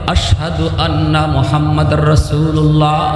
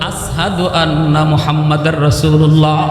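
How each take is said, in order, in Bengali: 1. 'ashhadu' শব্দটি sh ধ্বনি দিয়ে উচ্চারিত হয়। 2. 'ashhadu' শব্দটি s ধ্বনি দিয়ে উচ্চারিত হয়। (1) "আজানের মধ্যে বলা হয়" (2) "বেলালের মুখ দিয়ে আজান হতো"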